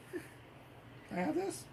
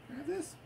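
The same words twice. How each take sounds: First: Slow, softer, breathy ask; soft coaxing whisper. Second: Said in the usual way. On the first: Real, not acted. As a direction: gently coax the cat to let go. Coaxing toy from cat.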